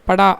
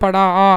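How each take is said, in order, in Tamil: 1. இறுதி உயிரெழுத்து இயல்பான நீளத்தில் ஒலிக்கப்படுகிறது. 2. இறுதி உயிரெழுத்து அதிக நீளமாக இழுத்து ஒலிக்கப்படுகிறது. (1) "படா அப்படின்னு சொல்லிடலாம்" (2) "ஓசைக்காக ... படா ஆ அப்படின்னு சொல்கிறாங்க"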